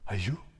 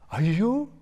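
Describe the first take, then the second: First: It sounds like reacting to bad news. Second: It sounds like a delightful surprise.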